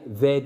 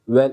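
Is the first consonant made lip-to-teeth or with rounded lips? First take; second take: lip-to-teeth; rounded lips. First: The first sound is a lip-teeth v. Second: The first sound is a rounded-lip w. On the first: The speaker calls it wrong. "ve değil. Türkçedeki gibi değil" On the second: The speaker calls it right. "Ve yani"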